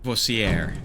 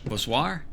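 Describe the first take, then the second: First: The name is said without a French sound. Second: The name is said with a French sound.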